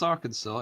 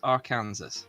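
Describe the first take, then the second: First: The name is said unlike its spelling. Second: The name is said as spelled, ending like Kansas. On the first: This is how the name is usually said. The speaker calls it wrong. "it's not spelt Arkansas" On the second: This follows the spelling of the name. The speaker calls it right. "it's spelt Arkansas"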